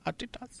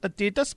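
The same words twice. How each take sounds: First: The name is pronounced the German way. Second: The name is pronounced the common English way. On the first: This is the brand's own name. The speaker calls it right. "but we are Adidas" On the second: This is what other people call the brand. The speaker calls it wrong. "People are calling us Adidas"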